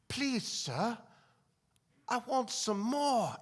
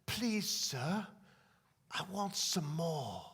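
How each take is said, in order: First: Higher, slow orphan's plea; earnest orphan begging, last words drawn out; pleading orphan. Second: Soft, slow orphan's plea; small, hesitant request to an imposing master; timid orphan. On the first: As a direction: repeat the plea a bit more boldly, pitched up. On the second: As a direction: ask meekly, drawing out the last words. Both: Acted. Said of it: "he stirs up the courage".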